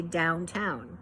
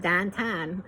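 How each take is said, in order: First: "downtown" with full OW vowels in both halves; corrected standard pronunciation. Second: "downtown" in Pittsburghese, vowels flattened to "dahntahn". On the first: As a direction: say "downtown" carefully as down-town, rounding both vowels. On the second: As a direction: say "downtown" the Pittsburgh way, like "dan-tan". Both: Acted. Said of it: "She corrected my Pittsburghese pronunciation".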